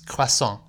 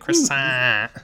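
First: It is said plainly, like a French word. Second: It has an exaggerated R and heavy nasals.

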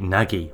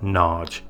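First: It is pronounced the American way. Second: It is pronounced the Hungarian way. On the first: "In America, they pronounce it Nagy" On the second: "every Hungarian I've spoken to pronounces that word as Nagy"

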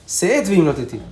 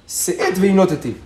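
The two takes are said the same way.

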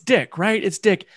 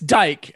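First: The vowel is short, like in 'kick'. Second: The vowel is long, like in 'bike'. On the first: The speaker calls it wrong. "I had the same thing. I was like, it's Dick" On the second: The speaker calls it right.

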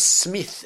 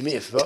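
First: The name begins with a clear S sound. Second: The name begins without any S sound. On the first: "I just couldn't say S" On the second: "I was Dickie Miff"

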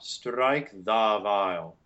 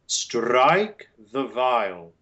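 First: The word 'the' has a full open vowel. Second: The word 'the' has a weak neutral schwa. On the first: The speaker calls it wrong. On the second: The speaker calls it right.

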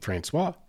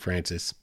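First: The name is said the French way, like Fransswah. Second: The name is said the English way, like Francis. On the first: This is the original French way of saying it. The speaker calls it right. "It's French. That's the proper pronunciation" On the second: This is the local colloquial way of saying it. The speaker calls it wrong. "People up there will say St. Francis. It's a colloquial thing"

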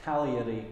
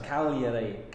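First: The G sound is left silent. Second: The G sound is left silent.

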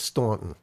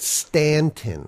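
First: It is said with a New York-area accent. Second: It is said the way the locals say it. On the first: This is how outsiders from the tri-state area say it. "If you got the New York or New Jersey tri-state area accent, it's Staunton" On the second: This is how the town's residents say it. "they pronounce it Stanton"

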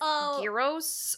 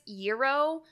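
First: It sounds like 'yee-ros', following the Greek spelling. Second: It sounds like 'euro', with a 'you' start. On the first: The speaker calls it right. "it would be Gyros if you're spelling it" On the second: The speaker calls it wrong. "Like E-U-R-O, like a Euro. And I know I'm wrong"

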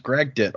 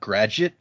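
First: The g sound comes before the d sound. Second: The d sound comes before the g sound. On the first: The speaker calls it right. "it says Gragdet" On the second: The speaker calls it wrong. "as if the D and the G had switched places"

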